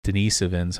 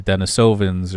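First: "Denisovans" with a long E, duh-NEE-suh-vinz; "Denisovans" pronounced duh-NEE-sih-vinz; alternate pronunciation. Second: "Denisovans" with a long O, den-uh-SO-vinz; "Denisovans" pronounced den-uh-SOH-vunz; alternate pronunciation. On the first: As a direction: say "Denisovans" with NEE as the strong syllable. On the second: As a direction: say "Denisovans" with SO as the strong middle. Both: Shown as a demonstration. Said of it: "however you wanna pronounce it".

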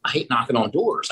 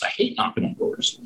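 First: Said in the usual way. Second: Soft, voiceless grumble of dread; muttered under breath. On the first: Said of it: "repeats it under his breath". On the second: Shown as a demonstration. Grumbling to himself about hating knocking on doors, muttered. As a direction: mutter it to yourself like you're dreading it. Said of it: "repeated under his breath".

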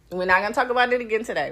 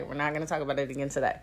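First: Said in the usual way. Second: Much softer, quick aside; hushed, hurried restatement; muted repeat. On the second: Real, not acted. Repeats refusal to herself, much softer.

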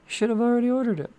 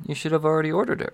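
First: Jokey high-pitched put-on voice; mock reminder. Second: Said in the usual way. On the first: Host teasing viewers about their orders, high mock reminder. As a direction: squeak the reminder out much higher.

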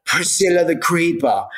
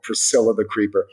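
First: Lightly put-on British accent, a bit higher. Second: Said in the usual way. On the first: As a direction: say the name like a posh Brit, half joking. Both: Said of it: "in a British accent".

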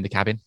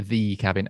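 First: Said in the usual way. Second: "the" said as a long "thee"; stress on THE. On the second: Shown as a demonstration. Co-host correcting himself on the cabin's title, stressed "the". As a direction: stretch "the" into "thee" before "cabin".

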